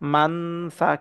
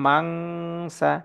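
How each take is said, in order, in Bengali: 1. n-টি স্পষ্ট n হিসেবে উচ্চারিত হয়। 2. n একটি গোপন অনুনাসিক ng ধ্বনি। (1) "মান সা কিন্তু হবে না" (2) "এখানে হবে মাং সা"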